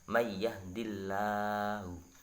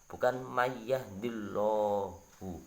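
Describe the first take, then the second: First: The L in Allah is light and thin. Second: The L in Allah is heavy and dark. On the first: The speaker calls it right. "itu bacanya" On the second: The speaker calls it wrong. "itu keliru, bukan keliru saja, sangat salah"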